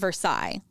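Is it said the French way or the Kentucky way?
French. It is said with a French pronunciation.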